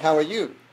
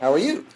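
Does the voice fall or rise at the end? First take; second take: fall; rise. First: The voice falls at the end, American style. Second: The voice rises at the end, Australian style.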